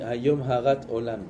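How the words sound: The middle word ends with a t sound. Today you created the world. "nous on dit"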